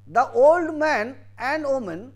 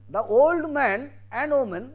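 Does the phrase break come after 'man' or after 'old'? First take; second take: after man; after man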